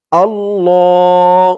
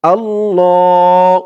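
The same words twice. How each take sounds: First: আল্লাহ with the ল held one alif long, slow; one alif stretch. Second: আল্লাহ sung out slowly, ল held one alif; one alif stretch. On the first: Teacher shows viewers the alif stretch in আল্লাহ. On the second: Teacher repeats আল্লাহ for viewers with the stretch. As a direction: chant আল্লাহ with a long ল. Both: Shown as a demonstration. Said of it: "ল বলে এক আলিফ টান দিতে হবে".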